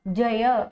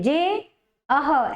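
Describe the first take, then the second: First: The two parts merge into one word. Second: The two parts are said as separate words. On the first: The speaker calls it right. "तो क्या बनेगा" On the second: The speaker calls it wrong. "ऐसे नहीं बोलोगे"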